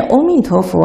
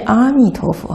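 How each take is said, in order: First: 阿弥陀佛 begun with a rounded "o" for 阿; first syllable as "o". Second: 阿弥陀佛 begun with an open "a" for 阿; first syllable as "a". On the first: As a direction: say 阿 in 阿弥陀佛 as "o", not "a". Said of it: "要念阿弥陀佛还是念阿弥". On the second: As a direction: say 阿 in 阿弥陀佛 as "a", not "o". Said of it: "还是念阿弥". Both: Shown as a demonstration.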